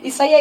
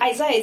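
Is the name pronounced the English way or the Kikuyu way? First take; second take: Kikuyu; English. First: The name is pronounced with a Kikuyu accent. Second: The name is pronounced with an English accent. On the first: "Isaiah is Kikuyu" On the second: "So Isaiah is English"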